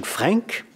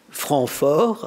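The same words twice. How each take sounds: First: Franc said the English way, with an English r and a nasal a. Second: Franc fort in French, with a uvular r and a nasal an, fort stressed. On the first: The speaker first says franc in English before switching to French. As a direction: say franc as an English word, rising at the end. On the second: The speaker corrects himself into French, giving the nickname properly. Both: Shown as a demonstration.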